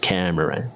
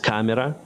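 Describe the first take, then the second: First: It is said with English vowels and sounds. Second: It is said with Ukrainian vowels and sounds. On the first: "In English, it's camera" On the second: "In Ukrainian, it's camera"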